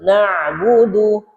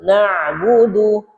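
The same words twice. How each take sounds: First: The consonant after 'na' is a pharyngeal sound. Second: The consonant after 'na' is a pharyngeal sound.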